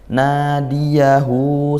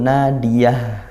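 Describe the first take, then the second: First: The word ends with a long final vowel. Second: The word ends on a consonant, without a vowel. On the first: The reading continues into the next word. "kalau kita wasal dibaca panjang" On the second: The reader stops at this word. "kalau waqaf kita baca langsung sukun"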